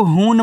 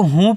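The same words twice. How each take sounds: First: हून closed on a full 'n' consonant; mispronounced final n. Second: हूँ as long 'oo' through the nose, no final n; nasalized vowel ending. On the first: Teacher warns learners against this reading, हून with a full final n. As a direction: sound out the n at the end of हून. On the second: Teacher gives the correct reading, हूँ with nasal vowel and no n. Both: Shown as a demonstration. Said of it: "इसको हून मत पढ़ देना".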